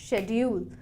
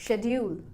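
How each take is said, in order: Both takes have the same delivery.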